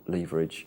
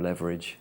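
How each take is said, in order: First: It is said with a British pronunciation. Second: It is said with an American pronunciation.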